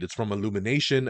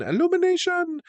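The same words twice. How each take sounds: First: Said in the usual way. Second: Sung-out high Illumination! with a sweeping fall; announcer flourish. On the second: Shown as a demonstration. To viewers, hyping the studio like a fanfare.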